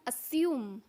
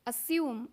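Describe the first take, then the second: First: It is said in a British accent. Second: The same.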